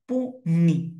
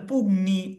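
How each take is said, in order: First: The middle is a single ny sound. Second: The middle has a hard g then n. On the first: The speaker calls it right. "না, পুনি" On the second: The speaker calls it wrong. "অনেকে এটাকে বলে পুগনি"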